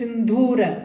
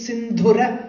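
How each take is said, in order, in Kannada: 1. ಎರಡನೇ ಅಕ್ಷರದ ಸ್ವರವನ್ನು ದೀರ್ಘವಾಗಿ ಉಚ್ಚರಿಸಲಾಗುತ್ತದೆ. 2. ಎರಡನೇ ಅಕ್ಷರದ ಸ್ವರವನ್ನು ಹ್ರಸ್ವವಾಗಿ ಉಚ್ಚರಿಸಲಾಗುತ್ತದೆ. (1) "don't say Sindhura" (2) "It is not Dirgham"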